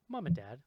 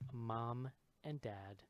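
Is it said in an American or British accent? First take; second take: British; American. First: It is said in a put-on British accent. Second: It is said in an ordinary American accent.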